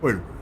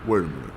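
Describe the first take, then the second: First: It is said in a high-pitched voice. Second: It is said in a lower-pitched voice.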